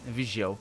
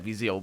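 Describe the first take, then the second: First: The middle consonant is a 'zh' sound. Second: The middle consonant is a 'z' sound. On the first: This is how locals from the city say it. "people from Viseu are are pronouncing it Vigio ... all the z becomes j" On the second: This is the speaker's own regional accent. "I say it like that, Viseu, ... that's my accent right there"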